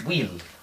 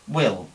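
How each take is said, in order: First: The vowel is a long, tense Spanish i. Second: The vowel is a short, lax i. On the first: The speaker calls it wrong. "¿qué haría un hispanohablante? Pues decir will" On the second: The speaker calls it right. "esta I es una I corta, como la de if"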